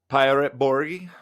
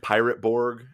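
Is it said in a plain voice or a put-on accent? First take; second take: put-on accent; plain voice. First: It is said in a put-on accent. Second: It is said in a plain, normal voice.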